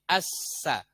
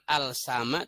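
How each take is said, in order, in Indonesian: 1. Bunyi L melebur ke S yang bertasydid. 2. Bunyi L dibaca sebelum S. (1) "tapi assa" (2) "bukan al sama"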